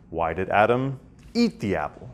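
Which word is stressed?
apple. The stress falls on the word apple. Why this food rather than another food. "rather than some other delicious foodstuff?"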